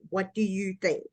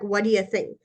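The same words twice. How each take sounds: First: Each word is said clearly and separately. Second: The words are run together and reduced. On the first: It is the proper, standard form. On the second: It is a casual, slang way of speaking.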